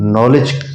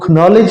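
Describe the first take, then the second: First: The word starts directly with the n sound. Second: A k sound is pronounced before the n. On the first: The speaker calls it right. "हम उसको नॉलेज पढ़ेंगे" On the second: The speaker calls it wrong. "हम उसको खनॉलेज नहीं पढ़ेंगे"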